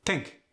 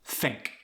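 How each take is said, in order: First: "Think" as tink; Khmer-style "Think", starting on a T. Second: Said in the usual way. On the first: Shown as a demonstration. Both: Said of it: "often replaced with a D or a T".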